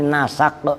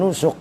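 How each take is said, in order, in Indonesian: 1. Kata ini memiliki vokal a setelah n dan s. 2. Kata ini memakai vokal u di seluruh kata. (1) "dengan dibaca fathah sinnya, ... tapi nasak" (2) "bukan nusuk"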